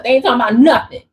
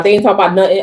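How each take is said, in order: First: Rattled off fast, words tumbling; rushed fast. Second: Said in the usual way. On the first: Shown as a demonstration. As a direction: say it as fast as you can. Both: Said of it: "I can't even say it fast enough".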